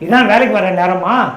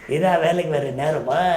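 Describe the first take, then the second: First: It is said in an ordinary speaking voice. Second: It is said in an imitated character's voice. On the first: "ஒரு முதலாளி இருக்காரு, வேலைக்காரங்கிட்ட பேசுறாரு" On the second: "அந்த கேரக்டரே வந்து எம்ஆர்ஆரா"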